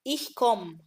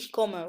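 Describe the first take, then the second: First: The final vowel of komme is dropped. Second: The final vowel of komme is clearly pronounced. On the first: "وبتتقال في الكلام السريع" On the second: "بدل"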